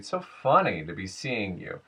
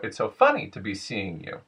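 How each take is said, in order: First: American accent, with a smooth glide on the stressed word. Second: Brazilian accent, with a sharp pitch blip up and down. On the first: "General American would be" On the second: "a much sharper, clearer blip up and then back down"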